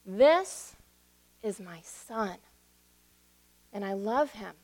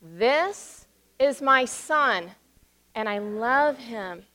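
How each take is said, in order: First: Voice of God. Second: Put-on very slow, each word spaced so children can follow; slow call and response. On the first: Retold or imitated. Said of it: "And God said". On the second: Shown as a demonstration. Pastor leads the children in repeating, slow and spaced out. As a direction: lead the children through it word by word. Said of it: "now say that with me".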